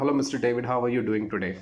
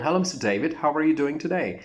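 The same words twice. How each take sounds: First: Said in the usual way. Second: Greeting lifted higher with a lively tune; brighter melodic greeting. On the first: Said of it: "But the second one". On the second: Shown as a demonstration. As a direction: sing the greeting with more melody. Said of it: "Another one".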